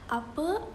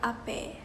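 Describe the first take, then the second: First: The word ends with an 'a' vowel. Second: The word ends with an 'e' vowel. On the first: This is the standard form of the word. "apa uh, starts uh, ends with the letter a" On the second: This is how Malay and Betawi speakers say it. "in Malay and Betawi they will change it with letter e"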